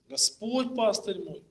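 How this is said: The stress falls on the first word. It is the Lord, and no one else, who is the shepherd. "логическое ударение поставили на первое слово"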